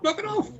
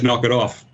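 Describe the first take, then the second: First: The voice is very high-pitched. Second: The voice is low and calm.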